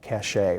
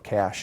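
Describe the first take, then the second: First: It is said in a non-American way. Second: It is said in the American way.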